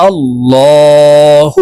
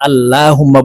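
First: আল্লাহুম্মা with a thick, dark "law", slowly chanted; heavy L. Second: আল্লাহুম্মা with a light, thin "laa", spoken quickly; common light L. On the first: Teacher showing how we should pronounce it, heavy "law" in আল্লাহুম্মা. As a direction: draw out আল্লাহুম্মা with a heavy L and held m. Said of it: "আমরা ল বলে উচ্চারণ করব". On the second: Teacher quoting what many people say, light "laa" in আল্লাহুম্মা. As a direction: say আল্লাহুম্মা conversationally with a plain light L. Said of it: "আমরা অনেকে এই যে". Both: Shown as a demonstration.

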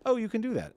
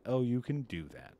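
First: Much higher, louder burst of delight; excited mock reaction. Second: Said in the usual way. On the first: Streamer imitating casters checking off boxes, mock excited. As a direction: pipe up as an impressed casting director.

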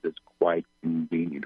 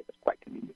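First: Said in the usual way. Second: Very soft, voiceless whisper; whispered channeling. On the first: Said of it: "and repeating them". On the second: Real, not acted. Medium hearing his guides' words, whispered. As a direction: whisper it to yourself first. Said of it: "I'm whispering the words".

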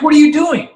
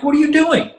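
First: Higher and louder, an exasperated shout of what are you doing; outraged disbelief. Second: High, loud, disbelieving cry of what are you doing; incredulous outburst. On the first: Bandmate catching friend planting pamphlets, outraged shout. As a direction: yell it, fed up with his stealing. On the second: Bandmate catching friend stealing from a fan's house, incredulous outburst. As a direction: catch him in the act and can't believe it. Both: Retold or imitated.

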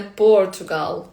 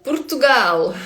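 First: "Португал" as POR-tu-gal; wrong-example "Португал", first syllable punched; stress on first syllable. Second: "Португал" as poor-too-GAL, loud and high; Portuguese "Португал" with final stress; stress on last syllable. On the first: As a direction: hit the opening of "Португал". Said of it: "А не Португал". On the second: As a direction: punch GAL at the end of "Португал". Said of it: "наголос завжди на останній склад". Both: Shown as a demonstration.

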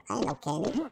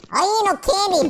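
First: Said in the usual way. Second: Raised protest. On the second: Pretend. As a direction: say it higher and fuller, insisting. Repeats the line in protest.

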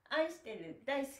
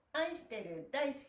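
No difference in how they are said.

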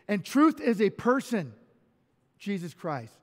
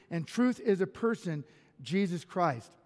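The two takes are said the same way.

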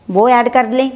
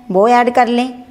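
Both takes have the same delivery.

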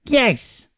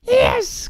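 First: Witch's yes. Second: Very high, squealed YES; delighted cry. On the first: Witch agreeing to take the frog, high-pitched answer. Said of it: "said the witch". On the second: Witch seeing her magnificent broom, delighted cry. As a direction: cry YES at the top of the voice's pitch. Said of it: "cried the witch". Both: A narrator's reading.

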